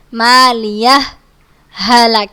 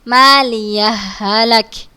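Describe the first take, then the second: First: A short stop without breath separates the words. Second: The words run together with no stop. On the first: "Berhenti dua harokat tanpa mengambil nafas" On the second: "langsung tanpa ada gunnahnya"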